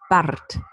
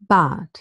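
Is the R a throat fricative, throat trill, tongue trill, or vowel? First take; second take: tongue trill; vowel. First: The R is trilled with the tongue tip. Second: The R becomes a vowel sound. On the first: "Now with a post-alveolar trill" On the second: "replacing the R by a deep schwa"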